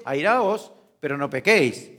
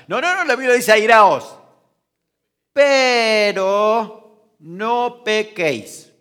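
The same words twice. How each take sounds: First: Said in the usual way. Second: "Airaos" shouted high and loud, then "pero no pequéis" drawn out very slowly; emphatic correction. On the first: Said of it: "Por eso dice". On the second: Shown as a demonstration. (corrección enfática: "Airaos" gritado, "pero no pequéis" muy lento)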